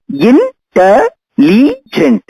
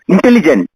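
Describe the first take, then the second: First: "Intelligent" very slow and higher, syllable by syllable; syllables spelled out. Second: Said in the usual way. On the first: Shown as a demonstration. Teacher counting four syllables for the class, slowly. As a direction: stretch "Intelligent" out beat by beat. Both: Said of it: "Four syllables".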